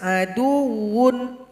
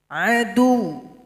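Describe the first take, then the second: First: The word ends with a full -un. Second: The word ends short and clipped. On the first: The speaker calls it wrong. "dibaca saja yang tertulis aduun" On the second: The speaker calls it right. "Satu ketukan saja, tidak panjang"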